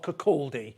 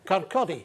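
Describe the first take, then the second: First: It is said with a southern, non-local pronunciation. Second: It is said with the local Fife pronunciation. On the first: The speaker calls it wrong. "if you're south of there" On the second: The speaker calls it right. "to pronounce it kind of correctly"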